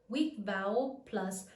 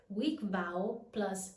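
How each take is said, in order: No difference in how they are said.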